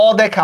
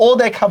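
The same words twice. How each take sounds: First: "অদেখা" with an open ɔ, as aw-dekha; open ɔ at start. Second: "অদেখা" with a rounded o, as o-dekha; closed o at start. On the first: Teacher giving students the correct example, "অদেখা" as aw-dekha. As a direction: begin "অদেখা" on an open aw sound. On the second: Teacher showing what we do not say, "অদেখা" as o-dekha. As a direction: begin "অদেখা" on a closed o sound. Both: Shown as a demonstration. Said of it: "আমরা কিন্তু অদেখা বলি না".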